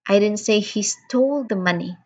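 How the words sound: The word stole carries the main stress. "I am stressing on the word stole"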